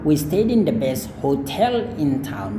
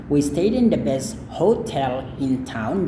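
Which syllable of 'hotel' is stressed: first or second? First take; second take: second; first. First: The stress in hotel is on the second syllable. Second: The stress in hotel is on the first syllable. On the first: "Jadi tel-nya yang ditekankan" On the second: "Jadi ho-nya ditekankan"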